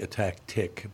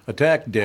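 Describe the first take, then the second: First: The last syllable starts with a clear t sound. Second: The last syllable starts with a d sound. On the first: The speaker calls it right. "You should pronounce that word correctly" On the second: The speaker calls it wrong. "it sounds like you're attacking a dick"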